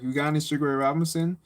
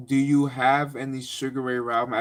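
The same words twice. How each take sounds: First: Fast, offhand street phrasing; quick casual ask. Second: Said in the usual way. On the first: Retold or imitated. Asking the gym teacher for tapes, fast and offhand. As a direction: toss the question off quickly, casual. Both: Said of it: "I didn't say it like that".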